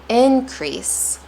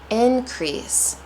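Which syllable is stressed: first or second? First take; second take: first; first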